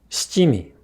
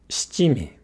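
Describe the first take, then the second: The two takes are said the same way.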